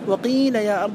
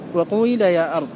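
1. الحركة الأولى كسرة خالصة. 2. تنتقل الحركة الأولى من ضمة قصيرة إلى كسرة طويلة. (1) "أشهرها ما ذكره ابن مالك هنا وهو الكسر" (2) "الإشمام هو النطق بحركة صوتية تجمع بين ضمة قصيرة وكسرة طويلة"

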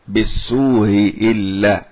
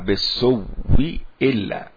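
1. الهمزة الأولى مسهَّلة، بلا صوت واو. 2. الهمزة الأولى تصير صوت واو مشدَّدًا. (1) "سيسهل الهمزة الأولى" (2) "أبدلها واوا ثم أدغمها"

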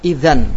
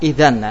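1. Kata itu berakhir dengan bunyi n. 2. Kata itu berakhir dengan bunyi n.

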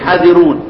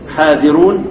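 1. الحرف الأول مقصور، بدون الألف. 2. الحرف الأول ممدود، مع الألف. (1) "والبعض يقرأ إيه؟" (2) "إثبات الألف. يعني البعض يقرأ إيه؟"

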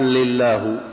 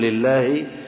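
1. تنتهي الكلمة بالضمة 'u'. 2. تنتهي الكلمة بالكسرة 'i'. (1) "ضم المجرور قال لله" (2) "بدل ما يقول لله"

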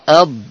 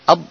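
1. Bunyi konsonan akhir dipanjangkan. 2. Bunyi konsonan akhir dipotong pendek. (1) "memanjang, tapi ab" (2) "tidak boleh ab"

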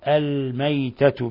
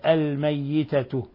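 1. الياء مفردة وقصيرة. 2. الياء مشددة ومُمَدّة. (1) "بالإسكان" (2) "بالتشديد"

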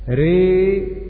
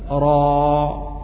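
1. الصوت مائل بقوة نحو i. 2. الصوت مفتوح تماما مثل a. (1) "وراء فيها الإمالة ري" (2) "قرأوا بالفتح راء"

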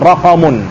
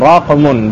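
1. Ada vokal a di antara q dan m. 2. Bunyi q langsung diikuti m. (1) "bukan rakamun" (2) "dengan mensukunkan qafnya"

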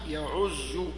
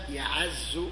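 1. الصوت بعد العين هو u. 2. الصوت بعد العين هو a. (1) "الثالث الضم" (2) "عز يعز بالفتح"

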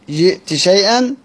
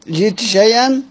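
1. يُنطق صوت t بوضوح قبل sh. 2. يُنطق صوت t بوضوح قبل sh.

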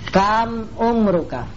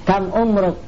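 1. Kata terakhir berakhir dengan vokal pendek. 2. Kata terakhir berakhir tanpa vokal di akhir.

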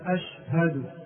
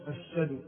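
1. تُنطق الهاء بوضوح بعد الشين. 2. تُحذف الهاء ويُشدَّد الشين. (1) "ينبغي أن يظهر الهاء" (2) "حذف الهاء تماما، وهذا خطأ"

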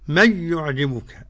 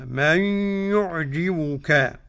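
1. في «من يعجبك» تُدغم النون في الياء بدون غنة. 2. في «من يعجبك» تُدغم النون في الياء مع غنة. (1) "أدغمت النون في الياء بس لا غنة" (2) "من إدغام بغنة"

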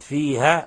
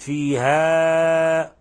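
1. الحرف الممدود الأخير مقطوع قصيرًا. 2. الحرف الممدود الأخير مُمدٌّ أكثر من اللازم. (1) "أسقطت الألف" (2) "فقد بالغت في المد عن المد الطبيعي"

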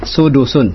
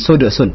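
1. d di tengah diikuti vokal u. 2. d di tengah tidak diikuti vokal. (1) "dalnya di sini diberikan harakat dhammah"

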